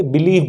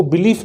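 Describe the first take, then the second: First: बिलीव closed on a V sound; believe with V. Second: बिलीफ closed on an F sound; belief with F. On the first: Teacher gives students the right verb, बिलीव ending in V. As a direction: end बिलीव on voiced V rather than F. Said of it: "क्या बोलेंगे?". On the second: Teacher rules out the noun for trusting, बिलीफ ending in F. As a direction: end बिलीफ on unvoiced F rather than V. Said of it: "बिलीफ नहीं बोलेंगे". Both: Shown as a demonstration.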